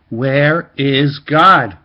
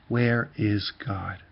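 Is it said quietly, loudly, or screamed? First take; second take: loudly; quietly. First: It is said more loudly. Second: It is said at a normal, quiet volume.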